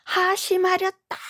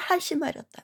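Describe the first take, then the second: First: Much higher, commanding monk's cry; stern shout. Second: Stern falling command. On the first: Monk striking the moktak, commanding shout. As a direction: bellow the command like a temple master. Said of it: "그 정도로 크게 목탁채를". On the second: Monk finishing his rebuke, firm falling command. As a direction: drop it down firmly to close. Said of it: "하면서". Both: Retold or imitated.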